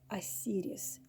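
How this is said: The name is said with a Russian pronunciation.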